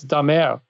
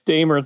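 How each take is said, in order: First: The name is said the French Canadian way. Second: The name is said the British way.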